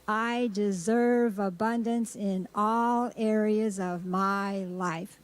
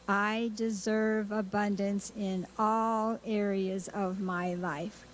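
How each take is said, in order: First: It is said with strong, energetic feeling. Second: It is said plainly, without much feeling.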